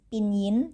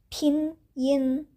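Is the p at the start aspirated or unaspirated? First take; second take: unaspirated; aspirated. First: The p is plain, without a puff of air. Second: The p is breathy, with a puff of air. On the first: The speaker calls it wrong. "ini bukan pinyin" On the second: The speaker calls it right. "cara bacanya adalah pinyin. P itu uh, dibacanya uh, seperti ph"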